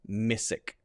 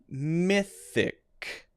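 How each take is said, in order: First: The middle sound is an 's'. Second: The middle sound is an unvoiced 'th'. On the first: The speaker calls it wrong. "which would sound something like missic, missic, which is incorrect" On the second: The speaker calls it right. "those two with the T H in the middle"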